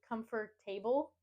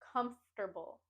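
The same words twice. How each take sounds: First: The stress falls on the last two syllables. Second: The stress falls on the first syllable. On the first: The speaker calls it wrong. "put the stress and emphasis on the last two syllables" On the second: The speaker calls it right. "put the emphasis and stress on the first syllable"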